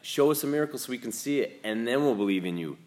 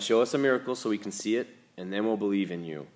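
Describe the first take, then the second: First: It is read in a snotty, mocking tone. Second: It is read in a plain, neutral tone.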